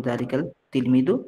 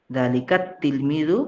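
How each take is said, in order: First: দালিকাল said with a clear l before তিলমিদু; with the lam sounded. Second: দালিকা তিলমিদু said slowly with no l, the t doubled; lam dropped, slowly. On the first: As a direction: pronounce দালিকাল তিলমিদু with the l of দালিকাল heard. (দালিকাল-এর ল স্পষ্ট উচ্চারণ করে) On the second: (ল বাদ দিয়ে ধীরে, দালিকাত্তিলমিদু) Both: Shown as a demonstration. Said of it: "আলিফ লামের লামটা উচ্চারণে আসে না".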